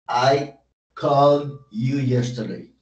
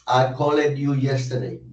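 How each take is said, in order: First: The -ed ending adds no extra syllable. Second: The -ed ending is said as an extra syllable. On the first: The speaker calls it right. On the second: The speaker calls it wrong. "Yo no puedo decir"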